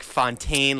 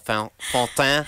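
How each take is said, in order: First: The name is said with an American accent. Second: The name is said with a strong French accent. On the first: "like Vince Fontaine?" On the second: "How French do you like to pronounce it? Do you like to like really lay on like the Fontaine"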